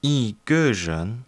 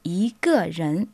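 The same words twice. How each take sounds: First: Yi ge ren repeated slowly and carefully; careful learner echo. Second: Yi ge ren with Mandarin tones. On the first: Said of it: "learner repeats". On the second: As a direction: say yi ge ren the Chinese way. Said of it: "nous disons". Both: Shown as a demonstration.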